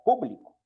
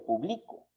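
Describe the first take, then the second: First: The stress is on the first syllable. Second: The stress is on the middle syllable. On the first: "reciben la fuerza de pronunciación en la antepenúltima sílaba" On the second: "sería una palabra graviollana"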